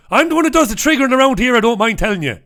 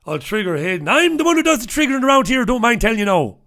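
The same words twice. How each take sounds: First: High, fast, loud put-on Irish-tinged accent; quick, high-pitched mimic of Hayden's accent. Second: High, fast, loud put-on brogue; quick high brogue, bragging; Hayden's accent. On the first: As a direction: rattle it off in Hayden's brogue. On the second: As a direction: mimic Hayden's accent with a swagger. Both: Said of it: "That's what he says in, in that accent".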